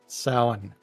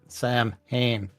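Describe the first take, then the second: First: It is said like 'sow-in', with no h sound. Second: It is said as 'Sam Hain', with an h sound. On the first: The speaker calls it right. "See, saw, win, sow, in" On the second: The speaker calls it wrong. "not Sam Hain"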